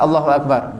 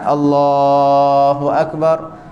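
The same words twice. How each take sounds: First: The phrase is said very short. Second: The phrase is drawn out very long.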